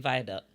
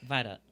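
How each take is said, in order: First: It is said in full as vi-a-duct. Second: It is said shortened, like vi-doc. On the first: This is how it is spelled, not how locals say it. The speaker calls it wrong. "We don't say viaduct" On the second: This is how locals actually say it. The speaker calls it right. "We say viaduct"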